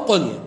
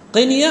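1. الحركة الأولى ضمة. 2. الحركة الأولى كسرة. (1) "القنية أيضا بضم القاف وسكون النون" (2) "قنية بكسر القاف وسكون النون"

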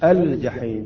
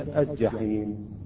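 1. تُنطق اللام بوضوح قبل الجيم. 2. تُدغم اللام في صوت الجيم الذي بعدها. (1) "يجب أن نظهر اللام" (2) "وليس"

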